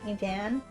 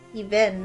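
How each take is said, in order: First: The first vowel is a short 'eh' sound. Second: The first vowel is a long 'ee' sound. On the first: The speaker calls it wrong. "not Evan. Eve, there's no A" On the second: The speaker calls it right. "Even, not Evan"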